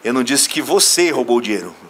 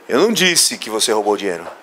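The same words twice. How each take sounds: First: The stress is on the word você. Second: The stress is on the word disse.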